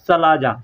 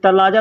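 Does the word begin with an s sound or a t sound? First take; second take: s sound; t sound. First: The word begins with an s sound. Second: The word begins with a t sound. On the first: This is how the word really is. The speaker calls it right. "होता है सलाजा" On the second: This is how people say it in everyday speech. The speaker calls it wrong. "तलाजा लोग कहते हैं"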